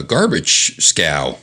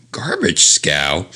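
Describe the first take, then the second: First: Said in the usual way. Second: "Garbage scow?" slow with a quizzical rise; bemused repeat of the quaint phrase; puzzled echo. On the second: Real, not acted. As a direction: question the odd phrase.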